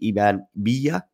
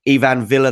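First: The name is said with a Spanish accent. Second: The name is said with a British accent.

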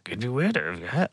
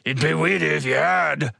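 First: It is said in a quiet, softer voice. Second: It is said in a gruff meathead voice.

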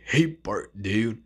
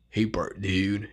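First: It is an impression of Snake from The Simpsons. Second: It is an impression of Snake from The Simpsons.

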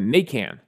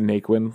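First: The name is said the Cajun Louisiana way. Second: The name is said the common everyday way. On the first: This is how it is said in Louisiana. "That's how they'd pronounce it" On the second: This is how most people say it. "everyone's going to pronounce it Naquin"

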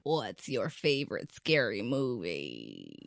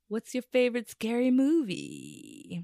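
First: It is said in a deep Ghostface voice. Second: It is said in her normal voice.

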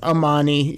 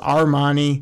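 First: No r sound follows the first vowel. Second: An r sound follows the first vowel. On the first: The speaker calls it right. "and it's Amani" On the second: The speaker calls it wrong. "I always want to go with Armani"

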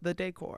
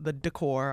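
First: The first syllable has an 'eh' vowel. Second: The first syllable lacks an 'eh' vowel. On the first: The speaker says it this way. "Put a little eh into it" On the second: Someone else says it this way. "you call it the decor"

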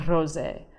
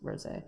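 First: The word is said with a put-on accent. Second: The word is said plainly, with no accent. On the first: The speaker calls it wrong. "I don't know why I said that with that accent" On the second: The speaker calls it right. "It's totally just rosé"

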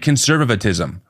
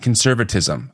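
First: The word is said with an extra syllable. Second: The word is said without an extra syllable. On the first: The speaker calls it wrong. "I say" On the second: The speaker calls it right. "I have a hard time saying"

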